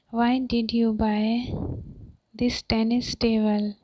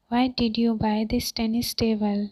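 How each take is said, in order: First: Long pause after "buy", left rising; "buy" held up, then "this tennis table" separately; chunked teaching repeat. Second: Said in the usual way. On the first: Shown as a demonstration. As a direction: split it after "buy" for learners.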